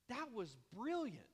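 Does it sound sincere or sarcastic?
sincere. It sounds sincere and genuinely pleased.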